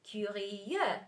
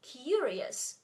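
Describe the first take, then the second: First: CurIEUX, French, stressed on the last syllable; slow French Curieux with the weight at the end. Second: CUrious, stressed on the first syllable; English stress. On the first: Teacher comparing French with English, end stress on Curieux. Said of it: "stressed at the end of". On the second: Teacher comparing English with French, first-syllable stress on curious. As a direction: say curious the English way, accent at the beginning. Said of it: "in English, stress on, at the beginning". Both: Shown as a demonstration.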